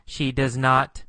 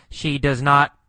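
The two takes are said the same way.

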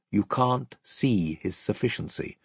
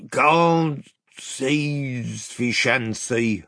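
First: Said in the usual way. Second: Slow, slurred, swallowed words; mumbling doorkeeper. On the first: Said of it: "which was his way of saying". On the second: A narrator's reading. Tousled gatekeeper blinking at the king's party, mumbling. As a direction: run the words together in a drawn-out mumble. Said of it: "he mumbled".

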